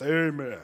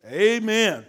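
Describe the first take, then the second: First: AMEN dropped into a lower register; bass in the voice. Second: Said in the usual way. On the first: Shown as a demonstration. Preacher showing men a bassy amen, "Amen" pitched low. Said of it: "I need to hear some bass in your voice". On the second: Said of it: "I need to hear some bass".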